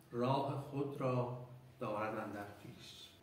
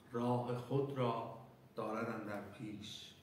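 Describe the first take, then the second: No difference in how they are said.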